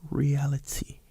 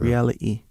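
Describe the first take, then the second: First: The T sound is pronounced clearly and solidly. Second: The T sound is dropped from the word. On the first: "sometimes they say them really solid" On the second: "They don't say the T"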